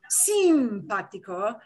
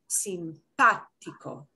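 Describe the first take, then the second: First: The stress is not on the second syllable. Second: The stress is on the second syllable. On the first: The speaker calls it wrong. "not simpático" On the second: The speaker calls it right. "but simpático"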